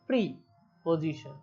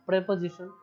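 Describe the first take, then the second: First: It starts with 'pree', split from 'position'. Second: It starts with 'preh', said as one word. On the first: It is read as two separate parts. "যদি আমরা separate উচ্চারণ করি" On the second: It is read as one whole word. "যদি এটা যদি একবারে লেখা থাকে তাহলে উচ্চারণটা কি হয়"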